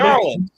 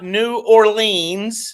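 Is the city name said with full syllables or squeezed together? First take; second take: squeezed; full. First: The name is squeezed into two quick syllables. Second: Each syllable of the name is said clearly. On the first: This is how locals say the name. The speaker calls it right. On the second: This is how outsiders say the name. The speaker calls it wrong.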